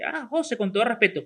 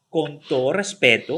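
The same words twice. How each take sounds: First: Casual, tossed-off remark; a la ligera. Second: Slow, lowered, ceremonious delivery; pompous, hand on chest. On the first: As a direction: say it lightly, in passing. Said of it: "así a la ligera". (dicho como si nada, a la ligera) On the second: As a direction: say it solemnly, like a weighty preamble. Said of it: "Manito en el pecho y pico parado". (solemne, con la mano en el pecho) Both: Shown as a demonstration.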